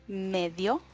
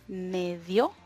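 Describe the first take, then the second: The two takes are said the same way.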